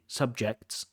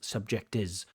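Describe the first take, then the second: First: The final consonant cluster is said intact. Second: An extra vowel breaks up the final cluster. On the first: The speaker calls it right. "she can't say subjects" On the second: The speaker calls it wrong. "she says subject is"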